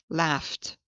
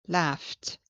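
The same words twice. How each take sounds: The two takes are said the same way.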